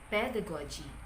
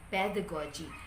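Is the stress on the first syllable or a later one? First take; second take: first syllable; first syllable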